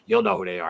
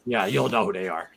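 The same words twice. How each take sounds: First: "You'll" said higher, pressing the point; insistent repeat. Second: Said in the usual way. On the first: Real, not acted.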